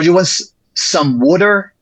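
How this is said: It is spoken in a Delaware County accent. "If you yeah from Delco"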